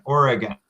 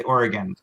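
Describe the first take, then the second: First: Oregon in three clear syllables, OR-uh-gun. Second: Oregon said in two syllables, OR-gun. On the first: Teacher shows students Oregon in three syllables, OR-uh-gun. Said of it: "there's three syllables". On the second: Teacher shows students Oregon in two syllables, OR-gun. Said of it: "Only two syllables". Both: Shown as a demonstration.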